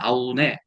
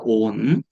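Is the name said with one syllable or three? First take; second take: three; one. First: The name is said as three syllables, a-u-ne. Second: The name is said as one syllable, on. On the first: The speaker calls it wrong. "이건 잘못된 번역이에요" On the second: The speaker calls it right. "온이라고 번역을 해야 되고"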